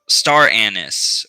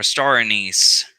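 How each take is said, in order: First: "anise" in "star anise" as AN-iss; alternate pronunciation. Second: "anise" in "star anise" as uh-NEECE; alternate pronunciation. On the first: Presenter listing oils offers one pronunciation, "anise" as AN-iss. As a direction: stress the first syllable of "anise", AN-iss. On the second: Presenter listing oils offers another pronunciation, "anise" as uh-NEECE. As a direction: stress the second syllable of "anise", uh-NEECE. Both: Shown as a demonstration. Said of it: "star anise or star anise".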